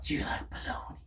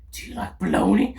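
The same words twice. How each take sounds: First: Hushed unvoiced whisper of do you like bologna. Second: Said in the usual way. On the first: Pranking a stranger in the street, whispered. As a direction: breathe the question with no voice. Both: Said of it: "be like".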